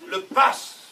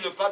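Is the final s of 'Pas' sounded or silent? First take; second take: sounded; silent. First: The word ends with a clear s sound. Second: The word ends without a final s sound. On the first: This is how locals say it. The speaker calls it right. "Alors qu'on dit le pass" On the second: This is how people from Paris say it. The speaker calls it wrong. "en parisienne, notoirement, ça se dit"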